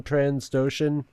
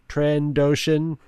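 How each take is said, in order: First: Said in the usual way. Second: "Trandoshan" slowly, as tran-DOH-shun with no s after "Tran"; corrected pronunciation. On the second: Real, not acted. Podcaster fixing a slip, "Trandoshan" slow with a clean "tran-doh". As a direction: say "Trandoshan" slowly and carefully, syllable by syllable.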